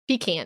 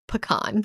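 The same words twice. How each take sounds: First: The first syllable sounds like 'pee'. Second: The first syllable does not sound like 'pee'. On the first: This is how people from elsewhere say it. The speaker calls it wrong. "You know how the other people say it" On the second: This is how locals say it. The speaker calls it right. "It's pecan"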